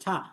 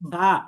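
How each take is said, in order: First: The first consonant is a hissing s-like sound. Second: The first consonant is a soft th-like sound. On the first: The speaker calls it wrong. "ছা বলা যাবে না" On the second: The speaker calls it right. "এইভাবে খুব নরম ভাবে"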